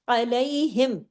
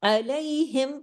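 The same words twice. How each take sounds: The two takes are said the same way.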